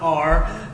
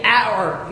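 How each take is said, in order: First: "our" said like "are"; other tribe's pronunciation. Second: "our" said as "ow-er", like "hour"; our tribe's pronunciation. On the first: Preacher showing the rejected way, "our" as "are". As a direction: flatten "our" into "ar", lower. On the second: Preacher showing his tribe's way, "our" as "ow-er". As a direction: give "our" its full diphthong, "ow-er". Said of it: "We say". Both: Shown as a demonstration.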